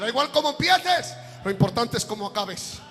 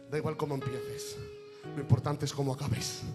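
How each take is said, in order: First: The phrase is said louder and more forcefully. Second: The phrase is said at normal, softer volume.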